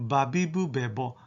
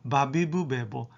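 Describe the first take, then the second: Both takes have the same delivery.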